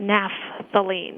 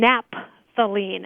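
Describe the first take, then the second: First: The 'ph' is pronounced as an f sound. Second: The 'ph' is pronounced as a p sound.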